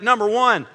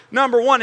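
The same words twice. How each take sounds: First: Said in the usual way. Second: "number one" pushed louder; emphatic number one. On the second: Shown as a demonstration. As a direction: hammer "number one" home. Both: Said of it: "it's a big number one".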